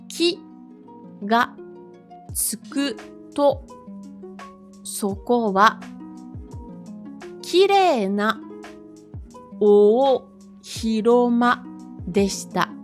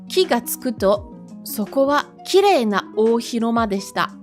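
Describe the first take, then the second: First: The sentence is read slowly. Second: The sentence is read a bit faster. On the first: "je vais lire lentement" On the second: "Je le relis un petit peu plus rapidement"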